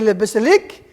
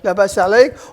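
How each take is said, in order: First: It is said in a shortened Tunisian Arabic accent. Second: It is said in a Palestinian Arabic accent. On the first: "they say" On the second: "in Palestinian Arabic we say"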